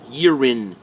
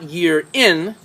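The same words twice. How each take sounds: First: The two words run together as one. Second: The two words are said separately. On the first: The speaker calls it right. "That's what I call linking, how the sounds link together" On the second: The speaker calls it wrong. "not year in"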